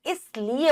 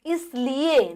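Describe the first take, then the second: First: इसलिए as 'is-li-e'; short i. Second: इसलिए as a slow 'is-leee-ye'; slow इसलिए with a held middle vowel; long ee. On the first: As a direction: keep the 'li' in इसलिए brief. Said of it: "छोटी ई". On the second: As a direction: stretch the 'lee' in इसलिए wrongly. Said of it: "इसलिए नहीं". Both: Shown as a demonstration.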